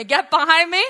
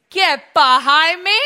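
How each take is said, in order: First: Loud repeated rebuke; congregation echo. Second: Slow, loud stern command; stern rebuke. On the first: Pastor and congregation repeating the rebuke loudly. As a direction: say it with the people. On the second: Pastor leading congregation in Jesus' rebuke, loud. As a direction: rebuke him firmly. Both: Shown as a demonstration. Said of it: "Say it with me".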